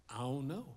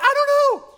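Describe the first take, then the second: First: Low, soft guilty mumble; small sheepish answer; sheepish kid. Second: Very high, loud squeal of an answer; hammed-up frantic kid; panicked kid yell. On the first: Retold or imitated. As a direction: shrink like a caught nine-year-old. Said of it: "And I said". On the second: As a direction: blurt it out in comic panic. Kid yelling back in panic.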